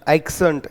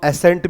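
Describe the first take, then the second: First: A 'k' sound comes before the 's'. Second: No 'k' sound comes before the 's'. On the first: "मैं बार बार एक्सेंट एक्सेंट इस तरह से बोल रहा हूं" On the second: "कुछ लोग इसको एसेंट भी पढ़ते होंगे"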